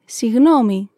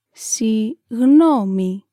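First: Said in the usual way. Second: Συγγνώμη stretched very slowly, syllable by syllable; slow teaching repetition. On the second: Shown as a demonstration. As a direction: draw out Συγγνώμη for the learner. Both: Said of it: "Let's say it again".

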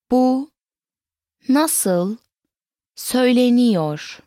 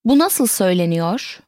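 First: Slow, each word set apart by pauses; word-by-word model. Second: Said in the usual way. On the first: Shown as a demonstration. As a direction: pause fully between words for a learner. Teacher breaks question into words.

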